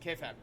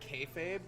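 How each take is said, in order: First: The last syllable is said as 'fab'. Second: The last syllable is said as 'fabe'. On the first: The speaker calls it wrong. "but they pronounce it kayfab" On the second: The speaker calls it right. "on camera they say kayfabe"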